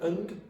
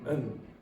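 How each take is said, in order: First: The word ends with a d sound. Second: The word ends without a d sound. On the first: "Sometimes und" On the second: "usually un"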